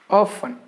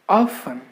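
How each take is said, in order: No difference in how they are said.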